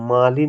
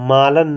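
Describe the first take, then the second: First: The second syllable is said as lin. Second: The second syllable is said as lan. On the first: The speaker calls it right. "मालिन होता है" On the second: The speaker calls it wrong. "मालन नहीं दोस्तों"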